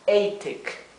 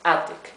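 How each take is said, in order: First: The first vowel is a long 'ay'. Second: The first vowel is a short 'a'. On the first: "Si tuviéramos una sola T, diríamos" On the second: "La A adquiere su sonido corto"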